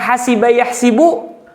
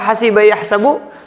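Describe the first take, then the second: First: The second word has an i vowel after s. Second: The second word has an a vowel after s. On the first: This is the form of the Hijaz dialect. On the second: This is the form of other dialects.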